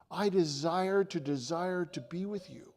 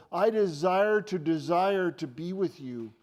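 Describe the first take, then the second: First: "desire to desire" eased back, without the punch; personal, sincere. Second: Loud, slow weight on both "desire"s; double emphasis. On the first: Preacher voicing Jesus speaking to him tonight, sincerely. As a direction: say "desire to desire" as an intimate assurance. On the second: Preacher driving Jesus' longing home to disciples, loudly emphatic. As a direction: punch "desire to desire" forcefully. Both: Retold or imitated.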